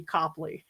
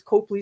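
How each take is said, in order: First: "Copley" said as COP-lee, with an open "ah"; local pronunciation. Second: "Copley" said as COPE-lee, with a long O; out-of-towner mispronunciation. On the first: Shown as a demonstration. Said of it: "it's supposed to be Copley". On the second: Retold or imitated. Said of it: "you know that they're from out of town".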